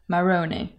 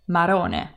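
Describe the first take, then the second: First: The R is a soft English R. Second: The R is a quick single tap. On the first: The speaker calls it wrong. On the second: The speaker calls it right.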